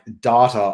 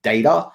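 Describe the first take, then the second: First: It is said in an Australian accent. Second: It is said in an American accent. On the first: "instead of saying like data" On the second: "I say like data"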